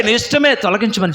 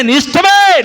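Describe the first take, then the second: First: Said in the usual way. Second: Higher, louder pleading take; నీ ఇష్టమే cried out high and loud; raised plea. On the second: Shown as a demonstration. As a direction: lift it into a cry of surrender. Prayer quote repeated, second take raised.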